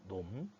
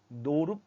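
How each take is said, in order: First: The word is said with one syllable. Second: The word is said with two syllables. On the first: The speaker calls it right. "놈이라고 합니다" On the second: The speaker calls it wrong. "노름이라고 하지는 않고요"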